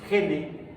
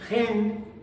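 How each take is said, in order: First: The word ends with an added vowel sound. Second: The word ends with a consonant sound. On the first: "Se suaviza agregando una vocal al final, típicamente la E" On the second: "y no gen"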